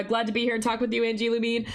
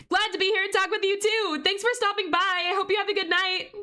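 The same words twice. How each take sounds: First: Said in the usual way. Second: Much higher, sing-out goodbye to a viewer; high-pitched farewell. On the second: Real, not acted. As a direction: send them off in a high, chirpy voice. Streamer answers a departing viewer.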